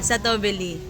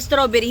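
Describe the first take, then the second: First: It is said with a Thai-style pronunciation. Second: It is said with a standard English pronunciation. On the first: Locals will understand the order. The speaker calls it right. "you should say satobeli" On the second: Locals may not understand it. The speaker calls it wrong. "hindi lahat naintindihan"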